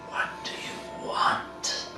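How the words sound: It is said in the creature's put-on voice.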